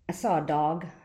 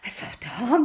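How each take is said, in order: First: It is said in a calm, plain way. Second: It is said in a frightened way.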